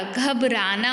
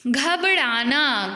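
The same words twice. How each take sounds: First: घबराना with a plain र; dental, untwisted र in घबराना; correct र sound. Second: घबराना said with flapped ड़ for र; wrong ड़ sound. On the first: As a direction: say घबराना as "ghab-raa-naa". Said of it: "रा की जगह रा आना चाहिए". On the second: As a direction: slowly say घबराना as "ghab-ṛaa-naa". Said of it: "घबराना नहीं होता". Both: Shown as a demonstration.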